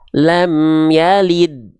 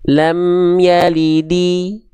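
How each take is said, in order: First: The last word ends on a bare 'd' consonant. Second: The last word ends with an 'i' vowel. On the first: The speaker calls it right. "tapi dia dibaca lam yalid" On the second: The speaker calls it wrong. "nggak dibaca"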